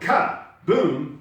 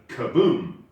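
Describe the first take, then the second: First: The stress is on the first syllable. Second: The stress is on the second syllable. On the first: The speaker calls it wrong. "we put the emphasis on the ka" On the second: The speaker calls it right. "instead of"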